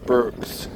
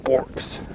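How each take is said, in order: First: The vowel sounds like 'ur'. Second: The vowel sounds like 'or'. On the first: This is the usual way to say the name. "we would pronounce this Burks" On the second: This is a playful alternative way to say the name. "I also am tempted to call it Borks"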